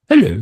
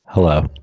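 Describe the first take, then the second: First: It is said in a cutesy stuffed-animal voice. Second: It is said in his normal voice.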